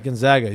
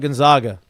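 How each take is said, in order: First: The middle syllable sounds like 'zag'. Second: The middle syllable sounds like 'zog'. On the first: The speaker calls it right. "It's Gonzaga. It's the Zags" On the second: The speaker calls it wrong. "it's not Gonzaga. You don't call them the Zogs"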